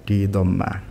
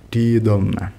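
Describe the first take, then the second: The two takes are said the same way.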